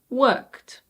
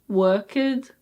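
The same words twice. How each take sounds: First: The ending is said without an extra vowel. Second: The ending is said with an extra vowel. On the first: The speaker calls it right. "so no E" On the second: The speaker calls it wrong. "Why don't we say worked"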